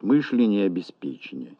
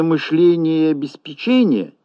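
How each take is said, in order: First: «мышление» on «мыш», «обеспечение» on «пе», lower; stress on МЫШ, ПЕ. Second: «мышления» on «ле», «обеспечения» on «че»; stress on ЛЕ, ЧЕ. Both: Shown as a demonstration. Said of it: "различаются в слове ударением".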